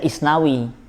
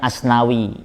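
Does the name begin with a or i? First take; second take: i; a. First: The name begins with the vowel i. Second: The name begins with the vowel a. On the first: "ada yang baca Isnawi" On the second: "namanya Asnawi"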